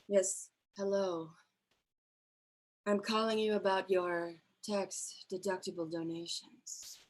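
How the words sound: It is said in a sultry, sexy voice.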